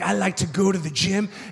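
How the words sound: The voice sounds changed and sinister.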